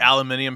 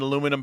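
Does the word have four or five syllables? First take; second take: five; four. First: The word is said with five syllables. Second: The word is said with four syllables.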